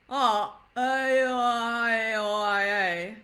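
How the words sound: It is choppy, with a pause early on.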